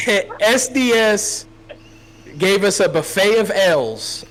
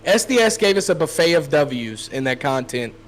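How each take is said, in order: First: High, slow, drawn-out misspoken line; slip of the tongue. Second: Said in the usual way. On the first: Real, not acted. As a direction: say the wrong word slowly before catching it. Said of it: "oh, blah, sorry".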